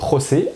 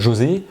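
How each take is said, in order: First: The J is a throaty Spanish h sound. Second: The J is a soft French zh sound.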